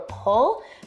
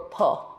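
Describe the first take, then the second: First: The word ends with a clear L sound. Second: The final L becomes a vowel sound.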